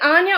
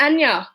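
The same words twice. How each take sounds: First: Anya with a long open "ah" at the start; open-vowelled "AHN-ya"; first pronunciation. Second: Anya with a short "a" as in cat; front-vowelled "AN-ya"; second pronunciation. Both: Shown as a demonstration. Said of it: "is it number one or number two".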